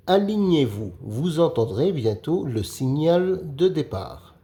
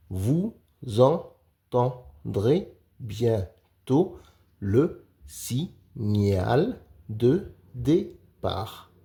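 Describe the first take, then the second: First: Said in the usual way. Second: Very slow decoding read, each syllable spaced. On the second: Shown as a demonstration. Teacher sounds out the sentence slowly for young readers. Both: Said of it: "Lis les phrases".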